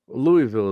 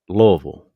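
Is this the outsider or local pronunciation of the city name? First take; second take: outsider; local. First: The name is said the outsider way. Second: The name is said the local way. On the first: It refers to the baseball bat brand. "Louisville is how you say it when you're talking about the bat" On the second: It is how people from the city say it. "they're going to say Louisville. That's just how it's said"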